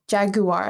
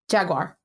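First: It is said the British way. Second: It is said the American way. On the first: "is how you say it in the UK, right?" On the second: "That's how I would say it"

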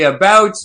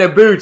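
First: The vowel sounds like the one in 'out'. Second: The vowel sounds like the one in 'boot'. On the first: "I say about" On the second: "not aboot"

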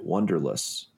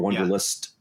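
First: The final T sound is left off. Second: The final T sound is clearly pronounced. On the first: This is how the officials actually said it. The speaker calls it wrong. "Except they pronounced it wanderlust" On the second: This is how it should have been said. The speaker calls it right. "why didn't you pronounce the T? Because if they had said wanderlust"

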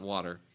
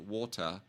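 First: It is said with an American accent. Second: It is said with a British accent.

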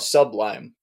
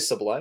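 First: It is split into 'sub' plus 'lime'. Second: It is said as the usual single word. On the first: The speaker calls it wrong. "Like less than a lime" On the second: The speaker calls it right. "Are you trying to say Sublime?"

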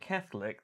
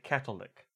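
First: The word is said with a 'th' sound. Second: The word is said with a 't' sound. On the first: This is how English speakers usually say it. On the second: This is how most Europeans say it.

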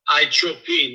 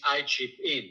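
First: It is said with an Italian accent. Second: It is said with a plain accent. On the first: "with the accent" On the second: "it means"

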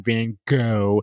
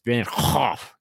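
First: The surname is said like the English word 'go'. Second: The surname is said with a throaty 'hoff' sound. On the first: The speaker calls it wrong. "it's not Van Gogh. It's not like go dog go" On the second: The speaker calls it right. "It's Van Hoff. You got a Hoff"

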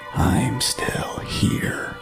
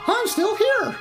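First: The voice is eerie and ghostly. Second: The voice is cheerful and playful. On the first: "maybe it didn't sound that ghostly" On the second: "It is Disneyland, so maybe it was more like"

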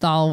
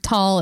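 First: The syllable begins with a th sound. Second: The syllable begins with a plain t sound. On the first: The speaker calls it wrong. "instead of thal" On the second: The speaker calls it right. "do tall instead of thal"

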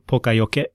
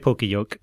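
First: It is said with a strongly Japanese pronunciation. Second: It is read with plain English spelling sounds. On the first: "if you want to say more Japanese sounding, but that's just weird in English" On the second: "don't say poka-yoke because that's really off"

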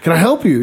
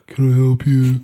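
First: It is said in a cheerful, friendly tone. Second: It is said in a bored, unfriendly tone.

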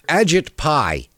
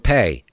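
First: The surname rhymes with the word 'pie'. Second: The surname sounds like the word 'pay'. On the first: "I don't know if I'm pronouncing the guy's name right" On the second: "or Pay"

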